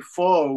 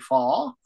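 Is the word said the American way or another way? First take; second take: American; other. First: The word is said with an American pronunciation. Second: The word is said with a non-American pronunciation. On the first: "Americans say faux" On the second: "We say fall"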